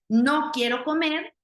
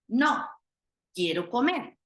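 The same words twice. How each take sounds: First: It is said without a pause after no. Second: There is a pause right after no.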